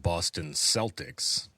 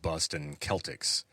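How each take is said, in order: First: Celtics begins with an s sound. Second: Celtics begins with a k sound. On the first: "soft C" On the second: "No one, as far as I know, says"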